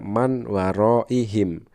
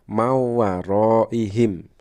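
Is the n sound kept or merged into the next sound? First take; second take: kept; merged. First: The n is clearly pronounced before the w. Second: The n merges into the following w sound. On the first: This is how it is written. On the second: This is how it is recited. "dibacanya adalah"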